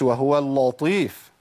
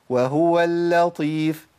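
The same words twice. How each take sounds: First: وهو اللطيف pushed hard, heavy stress on وهو; a strained, forceful وهو اللطيف; wrong forced recitation. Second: وهو اللطيف recited slowly, lam kept light and unforced; easy soft recitation. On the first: Teacher shows how not to recite. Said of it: "ما أقولش". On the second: Teacher shows the easy way to recite. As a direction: recite وهو اللطيف gently without heaviness. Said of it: "أنا أقولها إزاي؟ من غير ما أعمل مشاكل". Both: Shown as a demonstration.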